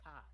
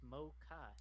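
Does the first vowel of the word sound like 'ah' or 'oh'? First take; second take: ah; oh. First: The first vowel is an 'ah' sound. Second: The first vowel is an 'oh' sound. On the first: The speaker calls it wrong. "It's not an A vowel though" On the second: The speaker calls it right. "it's an O. It's mocha"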